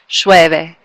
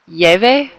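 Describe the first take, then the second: First: The ll is said with an sh sound. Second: The ll is not said with an sh sound. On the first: "I always say it with the sh" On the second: "hard for me to say without that accent"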